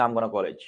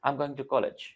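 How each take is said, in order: First: I'm gonna college, gonna before a noun; teacher shows the incorrect version; wrong form. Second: I'm going to college, going to said in full; teacher gives the correct version; correct form. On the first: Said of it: "इसको हम नहीं बोलेंगे". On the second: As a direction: say going to, not gonna. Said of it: "क्या बोलोगे". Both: Shown as a demonstration.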